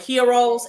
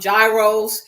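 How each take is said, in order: First: The word begins without a 'j' sound. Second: The word begins with a 'j' sound. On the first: This is the original, proper way to say it. The speaker calls it right. "it's the correct pronunciation" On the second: This is how people commonly say it. The speaker calls it wrong. "we call them gyros"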